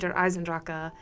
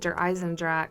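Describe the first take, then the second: First: The name is said with a German-style pronunciation. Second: The name is said with an anglicized pronunciation. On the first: The speaker calls it right. "that is how you say it" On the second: The speaker calls it wrong. "that is not correct"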